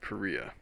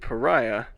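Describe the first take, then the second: First: It does not sound like the word pariah. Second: It sounds like the English word pariah. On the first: The speaker calls it right. "the unfamiliar word paria" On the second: The speaker calls it wrong. "the familiar word pariah"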